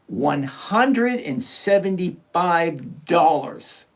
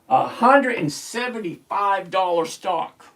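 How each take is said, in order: First: It is said slowly and deliberately. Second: It is said at normal speed.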